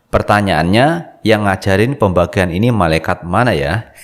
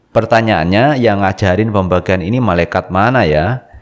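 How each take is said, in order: Both takes have the same delivery.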